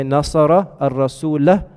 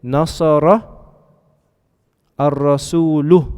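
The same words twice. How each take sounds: First: "ar-rasulah" slowly, ending on a clear open -a; Arabic accusative ending. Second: "ar-rasulu" slowly, with the final -u held and clear; Arabic nominative ending. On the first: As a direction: slowly land on the final -a of "ar-rasulah". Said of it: "If I say". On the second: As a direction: slowly stress the closing -u of "ar-rasulu". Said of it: "if I say". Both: Shown as a demonstration.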